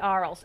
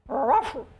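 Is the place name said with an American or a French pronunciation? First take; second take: American; French. First: The name is said with an American pronunciation. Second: The name is said with a French pronunciation. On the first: "the way we say Arles" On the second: "They go"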